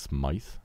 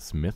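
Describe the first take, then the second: First: The name is said with the final E pronounced. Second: The name is said as plain Smith. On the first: The speaker calls it right. "it's Smythe, and it's Old British" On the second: The speaker calls it wrong. "apparently it's not Smith"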